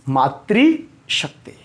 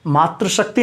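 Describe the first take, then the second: First: The first part sounds like 'maatri', with an ri. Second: The first part sounds like 'maatra', without an ri. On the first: The speaker calls it right. "ये है मातृ" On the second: The speaker calls it wrong. "नहीं"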